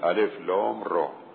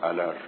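First: Each letter is named separately by its name. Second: The letters are blended into one word. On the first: The speaker calls it right. "بگیم الف لام را" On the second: The speaker calls it wrong. "نمیگیم الر"

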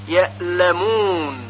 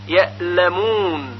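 Both takes have the same delivery.

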